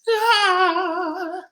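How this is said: It is said at a high pitch. "and our high voice"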